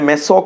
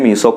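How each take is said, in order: First: The first vowel is short, like 'meh'. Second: The first vowel is long, like 'mee'. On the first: Some other people say it this way. "ചിലർ ഇതിനെ മെസോ compound എന്ന് ഉച്ചരിക്കും" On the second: This is the form the speaker habitually uses. "ഞാൻ ഇതിനെ മീസോ compound എന്നാണ് പറഞ്ഞ് ശീലിച്ചത്"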